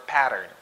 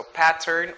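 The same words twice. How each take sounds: First: Pattern with the T softened to a quick D; American flapped T in pattern; glided T. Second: Pattern with a clearly sounded T; crisp T. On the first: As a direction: say "pattern" as "padern". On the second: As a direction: say "pattern" as "pat-tern". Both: Shown as a demonstration. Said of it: "They would glide the sound".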